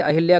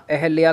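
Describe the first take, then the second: First: अहिल्या with "hi" in the middle; wrong pronunciation. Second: अहिल्या said as "ehalya"; correct pronunciation. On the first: Teacher warning students, अहिल्या with a "hil" middle. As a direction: sound the short "i" in अहिल्या. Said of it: "अहिल्या गलत है". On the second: Teacher giving the correct form, अहिल्या without "hi". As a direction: drop the "i" after h in अहिल्या. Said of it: "अहिल्या correct है". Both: Shown as a demonstration.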